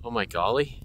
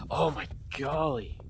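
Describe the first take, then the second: First: GOLLY lifted into a rising question. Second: Excited exclamation. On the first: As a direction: query the word golly, rising at the end. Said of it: "Is that a phrase". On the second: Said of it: "phrase that people say when they're excited". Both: Real, not acted.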